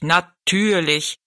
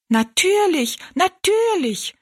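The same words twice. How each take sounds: First: Slow, drawn-out giant voice; stately giant. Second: Very high little dwarf voices; echoing dwarfs. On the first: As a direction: stretch it out ponderously as the giant. Riese, von Zwergen wiederholt. (gedehnt sprechender, würdevoller Riese) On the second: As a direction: squeak it like tiny people echoing. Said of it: "wiederholten die drei Zwergenmenschen". (piepsige, sehr hohe Zwergenstimmen) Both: A narrator's reading.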